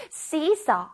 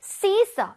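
First: Said in the usual way. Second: "seesaw" said higher and louder. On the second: Shown as a demonstration. 시소 단어를 더 높고 크게 반복. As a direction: punch the second "seesaw" up and loud. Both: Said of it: "C는 써".

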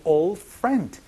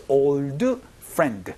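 First: Put-on OLD FRIEND run together as "ol frend", the Ds nearly silent; barely sounded D. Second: Put-on OLD FRIEND with each D sounded out as an extra syllable, "ol-deu peu-ren-deu"; mispronounced D endings. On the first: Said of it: "D 소리가 잘 나지 않기 때문에". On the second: English teacher showing learners what to avoid, over-pronounced Ds in "old friend". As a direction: say "old friend" slowly with heavy, fully voiced Ds. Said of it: "요렇게 발음하지 않고". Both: Shown as a demonstration.

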